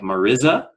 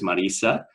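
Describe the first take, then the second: First: The middle consonant is a z sound. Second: The middle consonant is an s sound. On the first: This follows the written spelling. The speaker calls it wrong. "it's spelled like Mariza" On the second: This is how the name is really said. The speaker calls it right. "the proper pronunciation is Marisa"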